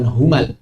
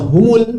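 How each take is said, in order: First: The m is followed by an a vowel. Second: The m is followed by an u vowel. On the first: The speaker calls it wrong. "bukan humal" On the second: The speaker calls it right. "Makanya dibaca humul"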